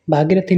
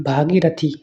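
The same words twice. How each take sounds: First: भागीरथी with a quick short i after g; wrong vowel length. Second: भागीरथी with a long ee after g; correct long vowel. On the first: Teacher shows students the mistake, short middle vowel. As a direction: hurry through gi in भागीरथी. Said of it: "नहीं". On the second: Teacher corrects students, long middle vowel. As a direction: draw out gee in भागीरथी. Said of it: "होता है". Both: Shown as a demonstration.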